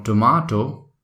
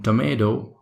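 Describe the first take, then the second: First: British "tomato" with a long "ah" in the middle; British pronunciation. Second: American "tomato" with "ay" in the middle; American pronunciation. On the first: Teacher recapping the British version for learners, "tomato" with "ah". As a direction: say "tomato" as "tuh-MAH-toh". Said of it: "this is called tomato in British". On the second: Teacher recapping the American version for learners, "tomato" with "ay". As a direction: say "tomato" with a stressed "MAY". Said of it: "In American co-, accent is called". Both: Shown as a demonstration.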